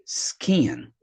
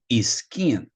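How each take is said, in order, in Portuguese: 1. A palavra começa diretamente com o som do s. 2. Um som de vogal extra vem antes do s. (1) "É apenas skin" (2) "muita gente fala skin, não faça isso"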